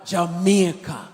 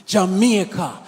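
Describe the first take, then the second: Both takes have the same delivery.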